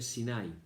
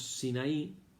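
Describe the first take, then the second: First: The stress falls before the final i. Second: The stress falls on the final i. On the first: "en hebreo se dice Sinai, no tiene el acento en la I" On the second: "en castellano decimos Sinaí"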